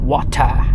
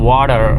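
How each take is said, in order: First: It is said in a British accent. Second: It is said in an American accent. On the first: "யூகேக்காரன் எப்படி சொல்லுவான்" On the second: "அமெரிக்காக்காரன் எப்படி சொல்லுவான்னா"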